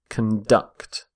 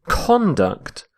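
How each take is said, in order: First: The stress is on the second syllable. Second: The stress is on the first syllable. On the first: It is the verb. "Stress on the second syllable" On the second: It is the noun. "We say conduct when we're using the noun"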